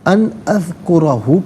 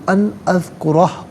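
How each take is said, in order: First: The last word ends with a short vowel. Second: The last word ends on a consonant. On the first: The reading continues without stopping. "अन अज़कुरहु पढ़ेंगे" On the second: The reader stops here. "वफ़ करेंगे तो"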